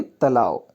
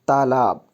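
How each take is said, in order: First: तालाब as "talao", no final b; wrong form. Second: तालाब as "taalaab", closed by b; correct form. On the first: Teacher reading the misspelling, तालाब as "talao". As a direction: end तालाब on an "ao" glide. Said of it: "तालाब नहीं होता". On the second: Teacher correcting it, तालाब with final b. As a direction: finish तालाब on a clear b. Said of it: "तालाब होता है". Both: Shown as a demonstration.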